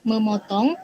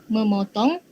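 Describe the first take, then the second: The two takes are said the same way.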